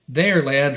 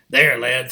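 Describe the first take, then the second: First: It is said in the speaker's ordinary voice. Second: It is said in an imitated character voice. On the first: The speaker calls it wrong. "Wait, I'm still not using his voice" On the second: The speaker calls it right. "I'm using Buzz's voice for Captain Wolf"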